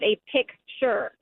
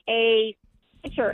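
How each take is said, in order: First: The k sound is clearly pronounced. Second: The k sound is dropped, like pitcher. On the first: The speaker calls it right. "instead of" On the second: The speaker calls it wrong. "they don't say the C"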